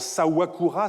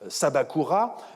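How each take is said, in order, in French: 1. Le nom a un son 'w' au milieu. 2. Le nom garde un 'b' plein au milieu. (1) "évoluant en" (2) "une conservatrice"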